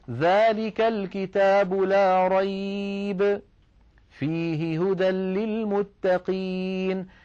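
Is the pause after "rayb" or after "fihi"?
after rayb. There is a pause after the word rayb. In the book is guidance for the pious. "كلمة فيه تتعلق بالجملة الثانية"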